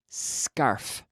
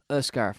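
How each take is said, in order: First: The word starts directly with the s. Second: A vowel sound comes before the s. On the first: The speaker calls it right. "there is no vowel in front" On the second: The speaker calls it wrong. "we don't we don't say uh"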